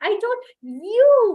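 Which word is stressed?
you. The stress falls on the word you. It was you I said it to. "when the stress is on you"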